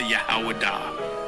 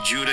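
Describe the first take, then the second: First: The name begins with a Y sound. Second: The name begins with a J sound. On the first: This is the ancient form of the name. "That is the ancient pronunciation of the word" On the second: This is the common modern form of the name. "When I say Judah"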